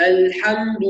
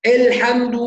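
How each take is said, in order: First: "الحمد" opening on a clean, open "a"; full fatha. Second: "الحمد" with an overdone, louder opening glottal stop, vowel tilted to "el"; exaggerated hamza. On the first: Teacher corrects the reader, الحمد with a full open a. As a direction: open the first vowel of "الحمد" fully to "al". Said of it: "خلي بالنا من الفتح". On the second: Teacher mimics over-careful readers, الحمد with an overdone hamza. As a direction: hit the first sound of "الحمد" too hard. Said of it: "من يبالغ أحيانًا". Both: Shown as a demonstration.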